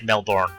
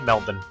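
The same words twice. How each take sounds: First: The second syllable sounds like the word born. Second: The second syllable does not sound like born. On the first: The speaker calls it wrong. "a lot of North Americans say Melbourne ... born born identity, it's spelt the same as that" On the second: The speaker calls it right. "It's always been Melbourne"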